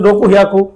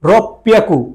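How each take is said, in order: First: The second word begins with an h sound. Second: The second word begins with a doubled p sound. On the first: The speaker calls it wrong. "হওয়ার কথা ছিল" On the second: The speaker calls it right. "এটা বলতে হবে রক পিয়াকু"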